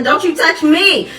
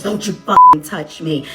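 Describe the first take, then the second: First: Put-on high, slow child's protest; defiant little girl. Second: Slow, loud snarling threat; angry mom. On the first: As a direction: stand up like a little kid. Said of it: "She said". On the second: Retold or imitated. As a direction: warn her off slowly and loudly.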